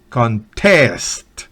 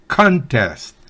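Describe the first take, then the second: First: The stress is on the last syllable. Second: The stress is on the first syllable. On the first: It is a verb meaning to compete. "con el acento en la última sílaba" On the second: It is a noun meaning a competition. "Como sustantivo es contest"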